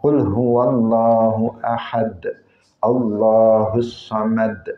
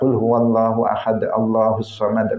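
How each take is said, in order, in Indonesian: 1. Dibaca dengan perlahan dan penuh keindahan. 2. Dibaca dengan cepat, diucapkan begitu saja tanpa hati-hati. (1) "Beda kalau kita membacanya" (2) "Kalau kita membacanya merocos saja"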